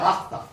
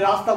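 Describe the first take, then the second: First: The word begins with an H sound. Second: The word begins with an R sound. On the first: This imitates a speaker who cannot say the R. The speaker calls it wrong. "সে হাস্তা" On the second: This is the standard form of the word. The speaker calls it right. "সে রাস্তা বলতে পারে না"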